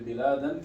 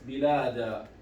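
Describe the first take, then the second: First: The word ends with an 'an' sound. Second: The word ends with a long 'a' sound. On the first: The speaker continues without stopping. "if I connect, I want to say biladan kathiratan" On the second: The speaker stops after this word. "If I stop at biladan, I will pronounce it as bilada"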